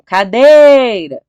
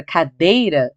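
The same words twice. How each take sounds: First: "cadeira" shouted as if at the gate, DEI stretched long; calling out loudly. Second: Said in the usual way. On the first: Shown as a demonstration. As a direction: call "cadeira" out, dragging the "dei" high and loud. (chamando "cadeira" alto no portão, com o "dei" bem esticado) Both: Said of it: "chama a cadeira, alto no portão".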